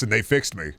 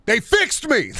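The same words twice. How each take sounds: First: Said in the usual way. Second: High-pitched excited yelp; emphatic outburst. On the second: Pretend. Streamer insisting the Mister Men books fixed him, emphatic outburst. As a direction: suddenly jump high and cry it out. Repeats his own line louder.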